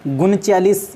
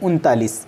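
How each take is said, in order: First: The second syllable begins with a ch sound. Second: The second syllable begins with a t sound. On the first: The speaker calls it wrong. "ये इसका गलत रूप है" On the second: The speaker calls it right. "इसका सही उच्चारण"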